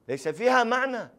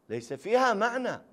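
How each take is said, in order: No difference in how they are said.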